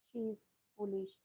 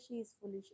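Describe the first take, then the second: First: Slow model sentence. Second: Said in the usual way. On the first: Shown as a demonstration. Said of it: "ऐसे भी तो बोल सकते हैं". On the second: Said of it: "ऐसे भी तो बोल".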